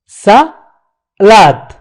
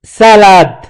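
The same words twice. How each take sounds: First: Salade with a clear break, sa, then lade; split into syllables. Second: Said in the usual way. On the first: Shown as a demonstration. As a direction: pull salade apart after sa. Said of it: "c'est la première syllabe". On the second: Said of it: "On dit".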